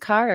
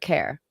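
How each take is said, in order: First: The vowel sounds like the word car. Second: The vowel sounds like the word care. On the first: "do you pronounce it Car" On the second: "or Care?"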